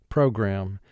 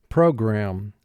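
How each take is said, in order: Both takes have the same delivery.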